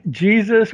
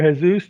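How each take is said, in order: First: Jesus said "JEE-zus"; Jesus the English way, J at the front; Jesus stressed on the first syllable, "JEE-zus"; American pronunciation. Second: Jesus said "heh-SOOS"; Jesus the Spanish way, H at the front; Jesus stressed on the last syllable, "heh-SOOS"; Spanish pronunciation. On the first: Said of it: "for most people in America, it's Jesus". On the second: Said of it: "obviously his first name is Jesus". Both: Shown as a demonstration.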